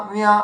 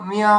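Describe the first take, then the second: No difference in how they are said.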